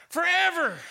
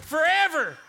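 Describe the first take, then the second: No difference in how they are said.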